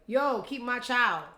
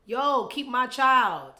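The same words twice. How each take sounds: First: Mock casual demand. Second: Loud, slow, drawn-out casual demand; mock casual demand. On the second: Mocking Cardi's casual text, loud and slow. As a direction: drag it out like a lazy casual order. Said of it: "so informal".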